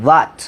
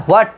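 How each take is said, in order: First: "what" said as "wat", straight on w; W without h. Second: "what" said with h before the w, "hwat"; mistaken h pronunciation. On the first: Teacher gives students the real pronunciation, w without h. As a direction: push the w of "what", no h. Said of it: "এটা হচ্ছে what". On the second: Teacher rejects the common pronunciation, mistaken h pronunciation. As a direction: add a breathed h to "what". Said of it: "উচ্চারণটা what না". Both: Shown as a demonstration.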